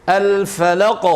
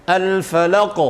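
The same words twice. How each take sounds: No difference in how they are said.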